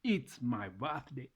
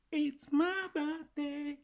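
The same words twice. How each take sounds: First: Said in the usual way. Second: Very high, slow, sung out; high sing-song. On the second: Shown as a demonstration. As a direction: squeal it way up high. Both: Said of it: "speaking of birthday".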